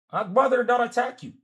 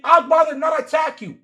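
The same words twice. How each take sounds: First: Said in the usual way. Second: Shouted take. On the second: Real, not acted. Arguing, repeats line louder.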